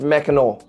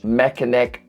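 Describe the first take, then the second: First: The word ends with an 'aw' sound. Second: The word ends with an 'ack' sound. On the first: The speaker calls it right. "It's actually pronounced Mackinac. Mackinac with A W at the end" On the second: The speaker calls it wrong. "I was calling it the Mackinac Bridge"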